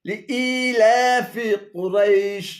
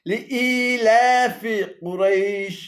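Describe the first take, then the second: The two takes are said the same way.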